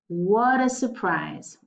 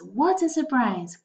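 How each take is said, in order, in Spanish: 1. La T es suave, como una D rápida. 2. La T es nítida y se libera con fuerza. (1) "la pronunciación en Estados Unidos es un poco más suave. Ellos dirían water" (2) "en inglés británico, diríamos la T más fuerte"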